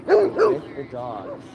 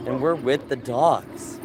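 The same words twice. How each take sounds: First: High, slow squeaky voice for the dogs; slow falsetto baby talk for the dogs. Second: Said in the usual way. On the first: Pretend. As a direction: pipe it up like a tiny dog. High put-on repeat to dogs.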